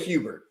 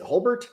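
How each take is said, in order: First: The L sound in the name is silent. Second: The L sound in the name is pronounced. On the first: "I'm going to say the L is silent" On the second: "Is the L silent or is it Holbert?"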